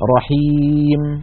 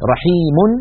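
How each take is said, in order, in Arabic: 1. تنتهي الكلمة بدون صوت النون الزائد. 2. تنتهي الكلمة بصوت النون الزائد. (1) "إذا وقفوا عليها يقفون رحيم" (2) "يعني رحيم"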